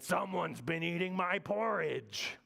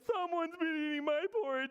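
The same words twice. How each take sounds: First: It is said in Big Bear's voice. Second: It is said in little bear's voice.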